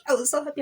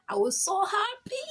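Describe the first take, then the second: First: Louder, higher happy outburst; loud excited. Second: Squealing much higher with joy; excited squeal. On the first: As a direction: burst out happy. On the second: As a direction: gush it out, thrilled. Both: Real, not acted. Joy at new school.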